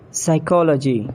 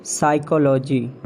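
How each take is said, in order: First: "Psychology" as sy-KOL-uh-jee; British pronunciation. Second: "Psychology" as SY-ko-LO-jee; mispronounced psychology. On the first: Shown as a demonstration. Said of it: "exact pronunciation according to the British". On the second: Acted. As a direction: stress SY in "Psychology". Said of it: "you have to correct me".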